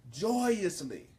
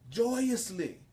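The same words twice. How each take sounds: The two takes are said the same way.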